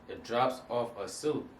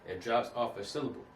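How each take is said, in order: No difference in how they are said.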